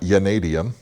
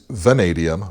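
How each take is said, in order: First: The word starts with a sound other than V. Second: The word starts with a clear V sound. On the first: The speaker calls it wrong. "I pronounced it incorrectly before" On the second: The speaker calls it right. "vanadium with a V"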